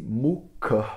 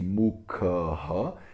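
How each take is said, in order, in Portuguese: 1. A palavra termina só com um pequeno sopro de ar. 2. O sopro final é seguido por uma vogal repetida. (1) "Eu só dou uma soltadinha de ar extra" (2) "ele não vai fazer com que eu pronuncie mukha"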